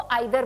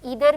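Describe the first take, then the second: First: The first vowel sounds like 'eye'. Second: The first vowel sounds like 'ee'. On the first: "British English में इसको आइदर बोला जाता है" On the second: "ईदर भी it's an American English"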